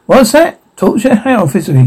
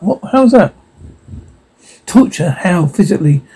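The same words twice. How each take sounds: First: Higher-pitched, startled questions that drop at the end; startled questioning. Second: Said in the usual way. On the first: Acted. Interviewer reacting to the ghost's answer, startled. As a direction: react with rising alarm, then settle.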